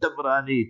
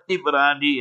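First: It is three syllables, starting with an a vowel. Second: It is three syllables, starting with an i vowel. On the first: "not ... Tabrani" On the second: "not Tibrani"

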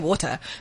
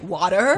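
First: It is said with a South African accent. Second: It is said with an American accent.

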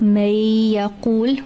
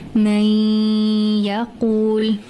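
First: The merged sound is short with no nasal quality. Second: The merged sound is nasal and held longer. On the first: The speaker calls it wrong. "not just may yaqul without hunna, without the nasal sound" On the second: The speaker calls it right. "The nasal sound has got to be there"

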